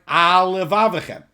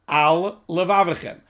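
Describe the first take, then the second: First: The two words run together without a pause. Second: A short pause separates the two words.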